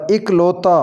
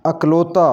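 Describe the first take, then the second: First: इकलौता opening on 'ik'; correct pronunciation. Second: अकलौता opening on 'ak'; mispronounced first vowel. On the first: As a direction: say इकलौता as 'ik-lau-ta'. (इकलौता को 'इ' से शुरू करें) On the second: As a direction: say अकलौता as 'ak-lau-ta'. (अकलौता को 'अ' से शुरू करें) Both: Shown as a demonstration. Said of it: "इसका सही तलफ़ुज़ होगा".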